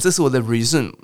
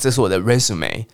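First: Resume is stressed on its second syllable. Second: Resume is stressed on its first syllable. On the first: The speaker calls it wrong. "如果你讲这是我的resume，马上就不被录用了" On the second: The speaker calls it right. "你要讲这是我的resume"

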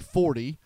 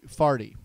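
First: It is said with a standard 'or' vowel. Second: It is said with a Saint Louis 'ar' vowel.

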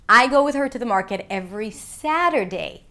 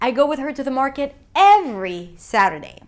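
First: The word 'Saturday' carries the main stress. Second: The word 'every' carries the main stress. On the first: It happens on Saturday, not on Sunday. "not Sunday" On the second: It happens every week, not just once a month. "not once a month"

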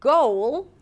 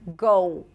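First: The word ends with a clearly heard L. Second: The final L sounds like an O vowel. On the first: "Instead of goal" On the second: "you don't really hear the L and it actually sounds like the O sound"

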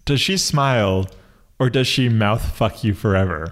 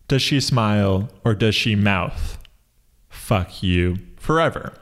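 First: There is no pause after "mouth". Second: There is a pause after "mouth". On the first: The lyric is about mouth fucking forever. "A lot of people heard this lyric and understood it as" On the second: The face is silently mouthing the words "fuck you forever". "So I delivered it as"

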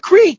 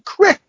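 First: The vowel is long, as in 'seek'. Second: The vowel is short, as in 'sick'. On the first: This is how the speaker says it. The speaker calls it right. "It's a creek" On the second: This is how the other person says it. The speaker calls it wrong. "You say fucking crick"

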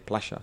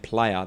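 First: It is said with an Argentine sh sound. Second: It is said with a standard y sound.

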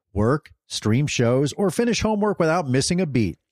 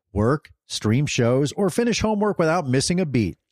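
No difference in how they are said.

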